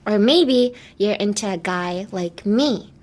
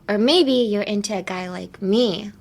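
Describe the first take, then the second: First: It is said slowly. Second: It is said at normal speed.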